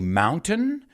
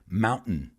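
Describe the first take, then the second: First: The middle t is fully pronounced. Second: The middle t is a glottal stop. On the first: "you can say mountain" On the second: "como los americanos"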